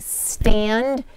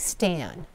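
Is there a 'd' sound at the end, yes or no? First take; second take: yes; no. First: The word ends with a clear 'd' sound. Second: The word ends without a 'd' sound. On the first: The speaker calls it right. "I would say stand" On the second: The speaker calls it wrong. "oftentimes doesn't get the ending sound"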